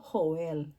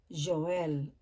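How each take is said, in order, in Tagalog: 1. Nagsisimula ang pangalan sa tunog na H. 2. Nagsisimula ang pangalan sa tunog na J. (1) "kung tatagalogin naman natin" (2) "Pero po sa English"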